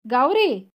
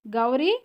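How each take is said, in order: First: Louder, sharp falling cry of the name; alarmed exclamation. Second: Rising, uncertain call of the name; questioning call. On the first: Sister seeing Gauri's face, loud startled cry. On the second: Sister shaking silent Gauri, a puzzled rising call. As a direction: ask her name, unsure. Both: Acted.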